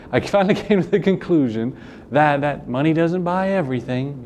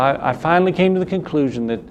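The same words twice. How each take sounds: First: Higher, lightly put-on voice quoting a girl; imitating her with amused, raised pitch; mock retake of quote. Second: Southern accent slipping into a quote; quoting with a light Southern accent. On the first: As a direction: redo the quote higher, with a laugh. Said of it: "there's my southern accent again, sorry". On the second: Real, not acted. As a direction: let a little Southern accent slip out. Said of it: "there's my southern accent again".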